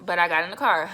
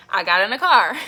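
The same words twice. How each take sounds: First: Said in the usual way. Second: Louder, emphatic restatement of "I got in the car"; deliberate restart. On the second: Real, not acted. Vlogger restarts the story after talking too fast, deliberate and emphatic. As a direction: punch out "I got in the car" to reset. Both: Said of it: "I'm talking so fast".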